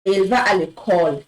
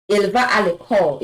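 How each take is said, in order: First: Elle va à l'école read quickly in French; French sentence. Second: Elle va à l'école repeated quickly in French; French sentence. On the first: Teacher reading Elle va à l'école to students. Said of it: "For example". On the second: Teacher repeating Elle va à l'école after explaining the à. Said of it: "You've seen the A here". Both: Shown as a demonstration.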